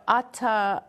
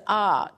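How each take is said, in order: First: Said in the usual way. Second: AH said for ata, the second syllable dropped; child's shortened word. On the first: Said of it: "he says ah". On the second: Retold or imitated. Host reading out how a boy says ata, shortened to AH. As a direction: cut ata down to one drawn-out AH. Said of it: "Instead of ata".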